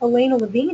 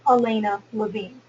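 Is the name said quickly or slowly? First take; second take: quickly; slowly. First: The name is said quickly, run together. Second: The name is said slowly, with spaces. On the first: The listener cannot catch the name. The speaker calls it wrong. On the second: The listener can hear the name clearly. The speaker calls it right.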